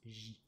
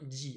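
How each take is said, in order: First: The consonant is a soft zh without stop. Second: The consonant starts with a d-like stop. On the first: The speaker calls it wrong. "pas juste J" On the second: The speaker calls it right. "Bien J, hein"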